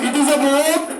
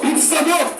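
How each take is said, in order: First: The words 'it is' are said in full. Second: The words 'it is' are contracted to 'it's'. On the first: The speaker calls it wrong. "ইট ইজ" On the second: The speaker calls it right. "ইটস, যেটা সহজ ওটাই ভাষা"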